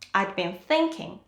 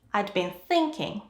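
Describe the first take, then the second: First: Had is shortened to 'd, stress on thinking. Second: Had is shortened to 'd, stress on thinking.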